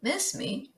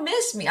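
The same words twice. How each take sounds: First: Miss me? said quietly, as if read off a note. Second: Miss me? echoed in disbelief, stressed on miss, falling; incredulous echo. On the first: Shown as a demonstration. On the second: Acted. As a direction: scoff back the words miss me?. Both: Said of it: "What are you talking about".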